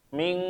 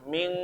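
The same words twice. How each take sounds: First: The nasal sound is light, like eng. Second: The same.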